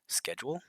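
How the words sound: It is said with an American pronunciation. "is how we say it"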